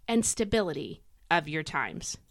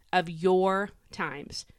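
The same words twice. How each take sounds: First: Said in the usual way. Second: Slow, drawn-out YOUR; stress on YOUR. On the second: Shown as a demonstration. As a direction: lean on "your" to make it personal. Repeats phrase stressing your.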